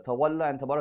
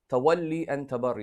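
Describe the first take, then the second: First: Both words end with an 'a' vowel. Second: Both words end with an 'ee' vowel. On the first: The speaker calls it wrong. "is not correct. It's a mispronunciation" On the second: The speaker calls it right. "that's the correct word"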